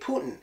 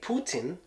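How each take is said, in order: First: The T in the middle is dropped. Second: The T in the middle is clearly pronounced. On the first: This is how Americans say it. "us Americans say Putin. It gets that drop T sound" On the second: This is how Russians say it. "how Russians say Putin"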